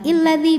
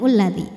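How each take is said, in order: First: The word begins with an i vowel. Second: The word begins with a u vowel. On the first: "bukan illadzi" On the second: "bukan ulladzi"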